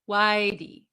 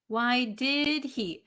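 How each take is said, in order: First: The words blend into one word without the h. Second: Each word is said separately and clearly.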